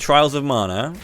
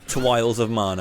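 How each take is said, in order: First: The r in the first word is a clear r. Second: The r in the first word becomes a w.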